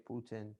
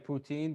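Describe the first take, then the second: First: The word ends with a short 'in' sound. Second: The word ends with a long 'een' sound. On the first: This is how actual Canadians say it. "they don't pronounce the "een."" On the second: This is how many people say it. "I know a lot of people say poutine"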